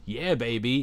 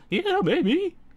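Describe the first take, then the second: First: It is said at a normal pitch. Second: It is said at a raised, high pitch. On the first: "instead of saying" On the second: "the pitch goes up ... he goes, Like that"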